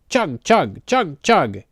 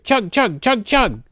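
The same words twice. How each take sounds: First: The words are said at a slow pace. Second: The words are said at a fast pace. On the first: "he said slowly" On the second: "Then he said it faster"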